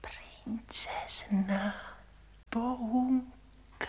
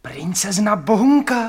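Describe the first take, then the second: First: Very slow, drawn-out whisper; přehnaný šepot. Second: Loud, high surprised question; hlasité zvolání. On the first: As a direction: repeat it in an exaggerated hush. (pomalu, protáhle šeptat) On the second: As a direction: blurt it out far too loudly. (překvapeně vykřiknout) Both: Acted. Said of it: "Nekřičte, to nesmí nikdo slyšet".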